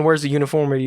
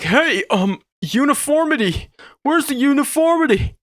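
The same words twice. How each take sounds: First: Said in the usual way. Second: High mock shout of a fussy critic; mock picky viewer. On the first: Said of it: "you probably wouldn't be thinking". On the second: To the viewers, a fussy critic's mock shout. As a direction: ham up an outraged nitpicker. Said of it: "you might see this side and be like".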